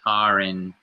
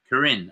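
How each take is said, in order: First: The stress is on the first syllable. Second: The stress is on the last syllable. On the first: "I forget how to pronounce it" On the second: "More emphasis on the end, the Rin"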